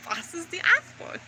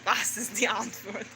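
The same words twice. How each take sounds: First: Soft but jumping high, rising at the end; imitating unhinged questioning. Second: Low, hushed, odd-voiced question; imitating manic muttering. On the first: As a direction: squeak upward like someone cracking up. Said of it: "I was fucking losing my mind". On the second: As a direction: mutter it like someone cracking up in a corner. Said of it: "bouncing in the corner".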